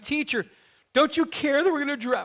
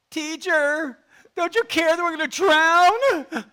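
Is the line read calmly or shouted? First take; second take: calmly; shouted. First: It is read in a calm voice. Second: It is shouted in a panicked voice.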